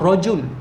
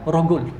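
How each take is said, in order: First: It is said with a j sound. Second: It is said with a hard g sound.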